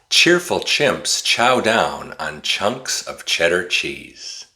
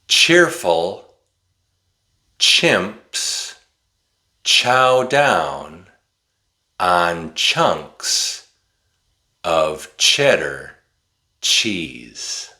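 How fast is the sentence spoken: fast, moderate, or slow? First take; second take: fast; moderate. First: It is spoken very fast without pauses. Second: It is spoken at a moderate, slightly quicker pace. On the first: "this time I'm going to say it really fast" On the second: "but a little faster this time"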